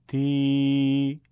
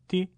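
First: "تی" held as a long, level tee; louder, stretched-out i on تی; long madd ya. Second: "تی" as a brief ti; short i with no stretch; short kasra. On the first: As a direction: draw تی out on one steady note. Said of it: "یه بار با یاء مدی". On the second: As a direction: cut the vowel of تی short. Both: Shown as a demonstration.

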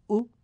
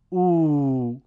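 First: او as a brief, cut-off "u"; short vowel. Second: او as a loud, drawn-out "uu"; long vowel. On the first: Teacher reads the damma drill, او kept short. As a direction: say او short, one beat. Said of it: "کوتاه تلفظ بکنید". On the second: Teacher reads the madd drill, او held long. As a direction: stretch او over two beats. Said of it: "با واو مدی به صورت کشیده". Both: Shown as a demonstration.

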